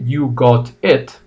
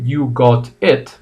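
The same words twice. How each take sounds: First: British accent, with a rounded 'o' vowel in got. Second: The same.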